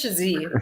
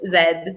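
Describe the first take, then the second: First: The letter is said as zee. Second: The letter is said as zed.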